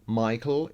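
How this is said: The name is pronounced the English way. "in English"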